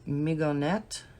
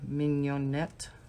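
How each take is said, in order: First: The G is sounded as a hard G. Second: The G is not sounded as a hard G.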